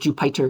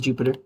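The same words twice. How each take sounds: First: The middle syllable sounds like 'pie'. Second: The middle syllable sounds like 'pih'. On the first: The speaker calls it wrong. "I used to think it was Jupyter because like pi for Python" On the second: The speaker calls it right. "they want to pronounce it as Jupyter"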